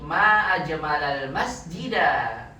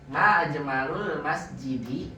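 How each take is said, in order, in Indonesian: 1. Akhiran memakai vokal a semua. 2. Akhiran memakai vokal u dan i. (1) "Af'ala setelahnya mansub maf'ul bih" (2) "Ini kalau dibacanya ma ajmalul masjidi"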